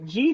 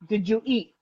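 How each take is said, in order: First: The words are squeezed into one syllable. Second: Each word is said separately, three syllables.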